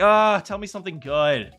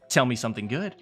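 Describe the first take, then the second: First: It is said in a bored tone. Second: It is said in a flat, neutral tone.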